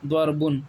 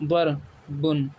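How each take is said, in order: First: Said in the usual way. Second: ضربن stretched slowly as dar-bun; slow model reading. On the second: Shown as a demonstration. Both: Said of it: "اس میں فرق ہے".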